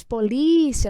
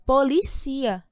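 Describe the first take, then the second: First: Said in the usual way. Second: Policia said slowly, stress moved onto the final CI; stress on the last syllable. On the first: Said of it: "muda a tonicidade". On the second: Shown as a demonstration. Teacher to students showing how policia sounds without the accent, slow stress on the end. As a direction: draw out policia with the stress landing on the end like a verb. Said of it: "Uma oxítona".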